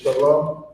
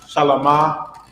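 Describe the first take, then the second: First: The word ends cleanly on the 'm' sound. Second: The word ends with an added 'ah' vowel. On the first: The speaker calls it right. "but it's shalom" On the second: The speaker calls it wrong. "shalom is not shalama"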